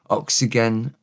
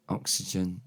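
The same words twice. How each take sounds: First: Oxygen said with a hard G, the Welsh way; Welsh pronunciation. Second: Said in the usual way. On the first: Shown as a demonstration. Teacher modelling the Welsh word: Oxygen with a hard G. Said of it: "oxygen is oxygen". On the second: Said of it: "So you don't have the J".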